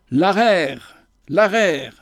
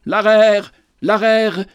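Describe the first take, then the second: First: A mild cry, barely raised, on L'arère, l'arère; a lightly voiced peasant's outcry; cried out. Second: L'arère, l'arère cried out higher and louder; a prophet's sudden loud cry; clamoring. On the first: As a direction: call out L'arère in a restrained, understated cry. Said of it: "s'écria Mazel". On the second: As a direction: burst out with L'arère as if waking from a dream. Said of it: "il clama tout à coup". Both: A narrator's reading.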